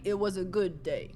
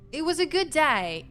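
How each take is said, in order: First: Said in the usual way. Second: Lifted, bright reading of good day; high sing-song take. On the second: Pretend. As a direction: say it up high like a cheerful tune.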